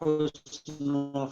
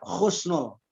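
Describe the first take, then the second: First: The word begins with a soft, breathy h sound. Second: The word begins with a harsh, raspy kh sound. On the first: The speaker calls it right. "Kita hanya memakainya H saja" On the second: The speaker calls it wrong. "Jangan sampai terucap husnul. Kalau husnul artinya tidak baik"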